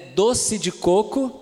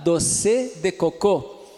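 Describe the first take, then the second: First: The final word is stressed before its last syllable. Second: The final word is stressed on its last syllable. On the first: A native Portuguese speaker says it. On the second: A French speaker says it.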